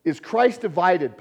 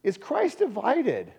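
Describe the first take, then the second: First: Slow, loud, leaning on Christ; slow rhetorical question. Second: Christ hit higher and louder, slow; stress on Christ. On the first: Retold or imitated. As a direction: ask it slowly and pointedly. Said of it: "Paul asks". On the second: Shown as a demonstration. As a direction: repeat it slower with Christ lifted high. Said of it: "repeats the question louder".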